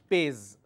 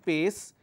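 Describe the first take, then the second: First: The word ends with a Z sound. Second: The word ends with an S sound. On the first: The speaker calls it wrong. "they end up saying pays" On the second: The speaker calls it right. "the pronunciation is sir"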